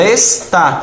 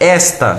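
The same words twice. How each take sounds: First: The stress is on the last syllable. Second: The stress is on the first syllable. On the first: It is a form of the verb 'to be'. "Se tivesse acentuação aqui, seria esta, se tivesse acentuação no, no ar" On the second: It is the demonstrative pronoun 'this'. "a tônica dessa primeira aqui, ó, é esta"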